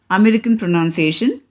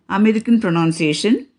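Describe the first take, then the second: Both takes have the same delivery.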